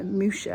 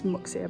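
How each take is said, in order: First: The middle consonant is said as 'sh'. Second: The middle consonant is said as 'ks'. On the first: This is the likely local pronunciation. The speaker calls it right. "I think it's probably pronounced" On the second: This is the speaker's habitual pronunciation. The speaker calls it wrong. "I say it's Muxia, but it's probably not pronounced like that"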